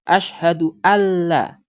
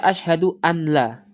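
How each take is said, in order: First: The n merges into a doubled l sound. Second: The n is pronounced separately before the l. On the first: The speaker calls it right. "Harus dibaca asyhadu alla. Tasydid" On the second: The speaker calls it wrong. "jangan baca asyhadu an la"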